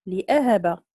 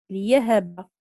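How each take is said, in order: First: لأهب with a glottal stop, "li-'ahaba"; with hamza. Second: ليهب with a y-glide, "li-yahaba". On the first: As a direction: break after li with a hamza in لأهب. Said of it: "قرأ بالهمز". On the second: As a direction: glide from li into ya in ليهب, no glottal stop. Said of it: "بالياء". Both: Shown as a demonstration.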